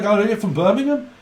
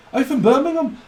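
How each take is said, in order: First: Higher rising Brummie question; Brummie accent. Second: Much higher falling Brummie repeat; Brummie accent. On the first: Brummie meets another Brummie, rising mock Brummie accent. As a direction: ask it gladly in a mock Birmingham accent. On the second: Brummie delighted to meet another, high mock Brummie accent. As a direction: squeal it again in a hammed-up Birmingham accent. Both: Retold or imitated. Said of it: "That's how they speak up in Brummie land".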